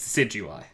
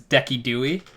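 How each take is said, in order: First: The name ends with an 'eye' sound. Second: The name ends with an 'ee' sound. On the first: It is the official name. The speaker calls it right. "His real name is Decidueye" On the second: It imitates someone who says names wrong on purpose. The speaker calls it wrong. "this is not the right pronunciation, but the YouTuber always says Deki Dewey"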